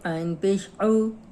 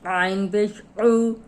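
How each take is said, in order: First: It is produced smoothly, without strain. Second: It is produced with strained, deliberate effort. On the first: The sounds have been memorized. "जब याद हो जाते हैं" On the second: The sounds are still being learned. "जब हम तकल्लुफ़ से निकालते हैं"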